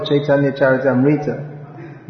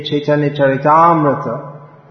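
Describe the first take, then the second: First: "Charitamrita" as cha-ri-tam-REE-tuh; mispronounced Charitamrita. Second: "Charitamrita" as cha-ri-TAAM-ri-tuh; long stressed TAAM in "Charitamrita", short RI; correct Charitamrita. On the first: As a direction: wrongly stress a long REE in "Charitamrita". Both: Shown as a demonstration. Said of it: "and not the".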